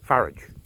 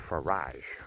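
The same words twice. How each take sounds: First: The name is pronounced in a plain, ordinary way. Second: The name is pronounced in a posh, refined way.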